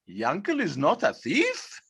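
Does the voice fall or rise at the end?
rises. The voice rises at the end, as a question. It casts doubt on whether he is not a thief.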